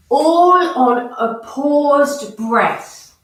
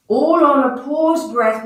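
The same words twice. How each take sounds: First: "all on a paused breath" drawn out slowly, stressing "all"; teacher slowing right down so the class hears "all on a paused breath"; slow emphatic instruction. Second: Said in the usual way. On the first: Shown as a demonstration.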